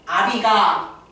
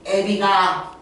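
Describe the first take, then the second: First: The first vowel is said without umlaut. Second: The first vowel is fronted by umlaut.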